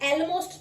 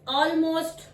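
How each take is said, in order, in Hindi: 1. पहला स्वर 'bet' में 'e' जैसा बोला जाता है। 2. पहला स्वर 'law' में 'aw' जैसा बोला जाता है।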